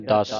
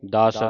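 First: ਦਸ said tight, with a doubled s; tight, tensed word. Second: ਦਸ said loosely, with a single s; soft, loose word. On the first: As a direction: say ਦਸ as a tense "dass". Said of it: "ਅਦਕ ਲਾਉਣੇ ਆਪਾਂ ਕੱਸ ਕੇ". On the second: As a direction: say ਦਸ as a relaxed "das", no doubling. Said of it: "ਜੇ ਆਪਾਂ ਪੋਲਾ ਪੜ੍ਹਦੇ". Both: Shown as a demonstration.

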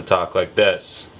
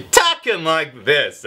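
First: Said in the usual way. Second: Higher, punched-out delivery; demo of another voice. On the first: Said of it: "so I have to talk like this". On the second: Shown as a demonstration. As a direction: jump up into a silly high voice. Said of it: "I'd rather be talking like this".

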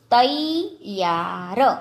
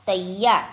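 First: તૈયાર very slowly, syllable by syllable; slow word demonstration. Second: Said in the usual way. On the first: Shown as a demonstration. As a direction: stretch out every sound of તૈયાર. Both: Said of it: "જોડણી ઉપર જોજો".

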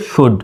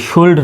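First: শুড as "shud", no l; correct silent-l pronunciation. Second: শুল্ড with the l sounded, "shuld"; "shuld", l pronounced; wrong pronunciation. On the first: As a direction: go straight from u to d in শুড. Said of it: "শুধু শুড". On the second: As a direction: put an audible l before the d in শুল্ড. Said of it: "শুল্ড নয়". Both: Shown as a demonstration.

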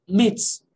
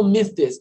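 First: "myths" said as "mits", ending in ts. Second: "myths" as "myth-tes", th then an extra syllable; overliteral plural. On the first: Teacher showing how they say the plural, ts demo. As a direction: end "myths" in a crisp ts, no th. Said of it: "como se fosse só um T S". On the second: Teacher showing how not to say it, laboured demo. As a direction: sound th and s separately in "myths". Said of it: "eu não falo myths". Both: Shown as a demonstration.

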